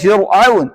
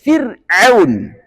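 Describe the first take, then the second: First: The r is pronounced thick and heavy. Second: The r is pronounced thin and light. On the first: The speaker calls it wrong. "Enggak boleh" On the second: The speaker calls it right. "Harus tipis"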